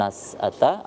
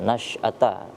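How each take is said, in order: First: The middle consonant is a plain s sound. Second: The middle consonant is a thick sh sound. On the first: The speaker calls it wrong. "bukan nas'ata" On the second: The speaker calls it right. "shin tebal"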